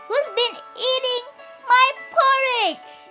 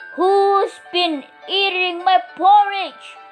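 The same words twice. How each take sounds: First: It is said in Mommy Bear's middle-sized voice. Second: It is said in Daddy Bear's big, booming voice.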